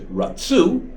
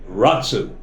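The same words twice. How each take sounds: First: The stress is on the last syllable. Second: The stress is on the first syllable. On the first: They wanted. "mil-ra, means the emphasis at the end" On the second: They ran. "one's the emphasis at the beginning, that's called mil-el"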